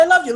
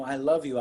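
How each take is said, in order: First: High, loud "I love you"; mock yell of love mid-quarrel; exasperated declaration. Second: Low, soft "I love you"; understated romantic confession, retold; soft declaration. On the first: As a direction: throw it out as a heated protest. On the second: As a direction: quietly imitate a lover confessing. First tender take of the line.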